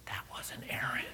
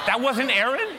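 First: Near-whispered, very soft; hushed revelation. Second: Loud, high, incredulous echo; shocked disbelief. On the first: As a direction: let the awkward news out under your breath. Son quietly reveals the mistake. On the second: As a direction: throw the news back as a stunned question. Father repeats news in disbelief. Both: Retold or imitated.

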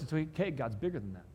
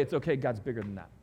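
First: Gentle reassurance after the swell; reassuring. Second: A calm it's okay after the climax; reassuring. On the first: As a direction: settle them, it's okay. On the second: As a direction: drop down and comfort them. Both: Acted. Reassurance after building line.

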